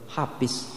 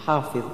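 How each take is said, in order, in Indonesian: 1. Bunyi dha diganti dengan bunyi lain. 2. Bunyi dha diucapkan sebagai konsonan emfatik. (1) "ada yang tidak bisa menyebut huruf dha" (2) "padahal yang sebenarnya adalah"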